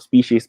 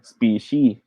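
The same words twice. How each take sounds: First: The word is said with a final s sound. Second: The word is said without the final s sound. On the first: The speaker calls it right. "It always has the S word. ... The S at the end" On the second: The speaker calls it wrong. "minsan may mga nagsasabi na species. Wa- Wala pong singular ang word na to"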